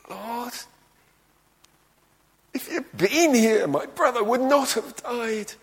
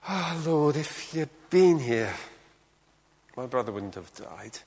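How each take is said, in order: First: It is said in an anguished, emotional tone. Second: It is said in a calm, practical tone.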